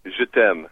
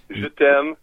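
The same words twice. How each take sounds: First: Je t'aime with a nasal French ending, falling; French phrase. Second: Je t'aime repeated a bit higher, stress on t'aime; French phrase again. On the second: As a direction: Je t'aime with a long nasal aime. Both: Shown as a demonstration. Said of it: "you would say".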